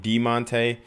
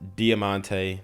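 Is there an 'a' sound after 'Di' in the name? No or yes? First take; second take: no; yes. First: The name is said without the 'a' sound. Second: The name is said with the 'a' sound. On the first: "They're not pronouncing the A" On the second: "It says Diamante. That's how I read it"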